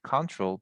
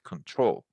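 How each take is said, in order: First: The stress is on the first syllable. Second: The stress is on the last syllable. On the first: It is the noun. The speaker calls it wrong. "not control" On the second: It is the verb. The speaker calls it right. "we need to to to stress the last syllable"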